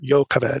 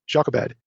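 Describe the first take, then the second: First: The name is given its Hebrew pronunciation. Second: The name is given its familiar English pronunciation. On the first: The speaker calls it right. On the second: The speaker calls it wrong.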